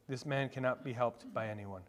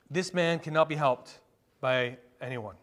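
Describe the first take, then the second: First: Low, soft and grave; hushed repeat. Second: Firm, full-voiced declaration; emphatic statement. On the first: Preacher repeating the hopeless verdict to the congregation, hushed. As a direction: drop the voice and let it sink in. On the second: Preacher telling the congregation the man is beyond help, emphatic. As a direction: state it firmly, pausing before the last phrase. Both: Real, not acted.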